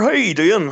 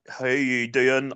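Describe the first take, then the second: First: It is said in a Derry-Donegal accent. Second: It is said in a slower Belfast accent.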